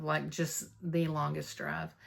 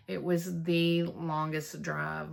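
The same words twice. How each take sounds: First: Slower, falling "just the longest drive"; weary repeat. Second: Slow, stretched stress on "longest drive"; drawn-out emphasis. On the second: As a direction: lean into "the longest drive", dragging it out. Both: Real, not acted.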